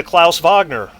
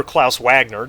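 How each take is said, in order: First: Wagner said as "VAHG-ner"; "Wagner" the German way, starting on a V sound; German pronunciation. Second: Wagner said as "WAG-ner"; "Wagner" the English way, rhyming with "bag-ner"; English pronunciation. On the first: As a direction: pronounce Wagner with a German V and broad "ah". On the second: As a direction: pronounce Wagner with an English W and short "a". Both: Shown as a demonstration. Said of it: "depending on how you wanna pronounce it".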